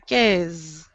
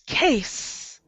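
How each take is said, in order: First: The word ends with a buzzing Z sound. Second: The word ends with a hissing S sound. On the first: The speaker calls it wrong. "I'm not sure why you guys do a Z here" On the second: The speaker calls it right. "now this word is case"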